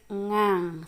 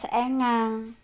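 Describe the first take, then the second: First: The first vowel is a short, weak schwa. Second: The first vowel is a clear, full e. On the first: The speaker calls it right. "engang sami kalebet kana e pamepet" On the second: The speaker calls it wrong. "sanes engang"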